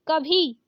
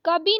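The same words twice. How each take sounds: First: कभी with breathed bhi; correct aspirated भ. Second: कभी said as kabi; plain b in कभी, no puff; wrong ब for भ. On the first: Teacher correcting it, कभी with aspirated bh. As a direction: puff the भ in कभी. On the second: Teacher showing the mistake, कभी with plain b. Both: Shown as a demonstration. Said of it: "कभी नहीं कभी".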